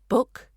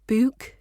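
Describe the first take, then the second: First: The vowel is short, like in put. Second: The vowel is long, like in food. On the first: The speaker calls it right. "we've got the short uh sound in book" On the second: The speaker calls it wrong. "it's not book"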